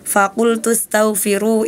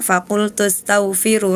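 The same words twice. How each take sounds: First: The vowel is held long. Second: The vowel is held short. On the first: The speaker calls it right. "harusnya dibaca panjang" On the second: The speaker calls it wrong. "Hana tadi bacanya"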